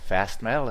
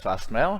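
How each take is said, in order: First: It is said with an American accent. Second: It is said with an Australian accent.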